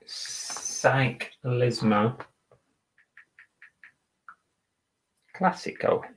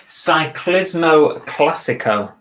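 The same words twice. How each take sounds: First: "Cyclismo Classico" breathed out voiceless and slow, syllable by syllable; whispering while typing. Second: Slow, drawn-out "Cyclismo Classico" in a mock Italian lilt; careful Italian reading. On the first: Seller typing the listing title, whispering to himself. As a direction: mouth "Cyclismo Classico" under your breath as you type. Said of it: "gotta spell it right". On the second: Seller reading the Italian jersey brand, slow and deliberate. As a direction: savour each syllable of "Cyclismo Classico". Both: Real, not acted.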